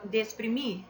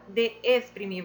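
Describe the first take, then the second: First: The two vowels are merged into one syllable. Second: The two vowels are said as separate syllables. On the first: The speaker calls it right. "você fala de exprimir, já fala tudo junto" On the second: The speaker calls it wrong. "você não fala de exprimir"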